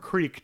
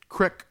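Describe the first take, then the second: First: The vowel is long, rhyming with seek. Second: The vowel is short, rhyming with brick. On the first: This is the other common way to say it. "depending on how you pronounce it" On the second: This is the way people say it in Ohio. "depending on how you pronounce it"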